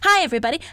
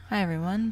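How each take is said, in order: First: It is said loudly with high energy. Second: It is said quietly and steadily.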